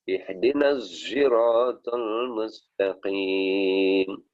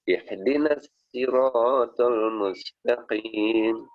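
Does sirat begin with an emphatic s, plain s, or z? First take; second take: z; plain s. First: Sirat begins with a voiced z sound. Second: Sirat begins with a plain, light s sound. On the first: "atau dengan dengan dengan zai" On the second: "atau dengan sin"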